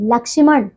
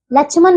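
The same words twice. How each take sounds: First: लक्ष्मण said as "lakshman"; correct ksh sound. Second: लक्ष्मण said as "lachhman"; ch in place of ksh in लक्ष्मण; wrong ch sound. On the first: Teacher correcting pupils, लक्ष्मण with clear ksh. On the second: Teacher showing pupils the error, लक्ष्मण as "lachhman". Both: Shown as a demonstration. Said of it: "लक्ष्मण नहीं".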